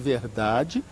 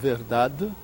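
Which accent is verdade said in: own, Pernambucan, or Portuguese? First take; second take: own; Pernambucan. First: It is said in the speaker's everyday accent. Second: It is said in a Pernambuco accent. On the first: "a minha pronúncia de verdade" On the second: "a pronúncia pernambucana de verdade"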